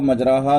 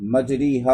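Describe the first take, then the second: First: The vowel after r is a pure open a. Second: The vowel after r is a close ee sound. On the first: "नहीं पढ़ेंगे फ़तहा और अलिफ के साथ" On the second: "कसरे मारूफ पढ़ें तो"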